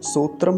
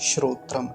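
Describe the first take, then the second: First: The word begins with a plain s sound. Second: The word begins with a shr cluster. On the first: The speaker calls it wrong. "सोत्रम नहीं बोलेंगे" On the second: The speaker calls it right. "श्रोत्रम ऐसा उच्चारण होगा।"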